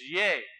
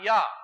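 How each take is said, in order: First: The syllable is said with an 'eh' vowel. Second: The syllable is said with an 'ah' vowel. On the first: The speaker calls it right. "The Shva sound is yay" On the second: The speaker calls it wrong. "not yah"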